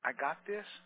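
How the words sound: It is said timidly and hesitantly. The speaker doubts she can do it. The speaker calls it wrong. "in a timid, hesitant voice"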